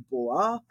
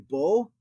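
First: The word ends with an extra 'ah' sound. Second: The word ends on a bare 'o' sound. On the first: "I like pronouncing it" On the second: "They'll leave that Aleph on the end unpronounced"

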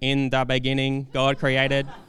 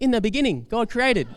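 First: It is said in a flat, robotic voice. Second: It is said in a broad Australian accent. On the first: "some computer-generated voice saying" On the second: "some Oka Aussie voice"

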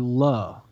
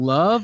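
First: The word ends without the v sound. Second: The word ends with a clear v sound. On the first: The speaker avoids fully saying love. "like L-U-H" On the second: The speaker fully commits to saying love. "Like with a V"

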